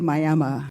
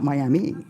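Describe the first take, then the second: First: The name is said the local way. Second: The name is said the outsider way. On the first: This is how people from the area say it. The speaker calls it right. "we say Miami" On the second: This is how people from elsewhere say it. The speaker calls it wrong. "not Miami"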